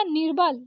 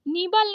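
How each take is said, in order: First: निर्बल with r before bal; correct र. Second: निबल with no r; wrong missing र. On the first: Teacher correcting it, निर्बल with r. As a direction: sound the r in निर्बल. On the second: Teacher showing the mistake, निबल without r. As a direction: go straight from ni to bal in निबल. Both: Shown as a demonstration. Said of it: "निबल नहीं होता निर्बल".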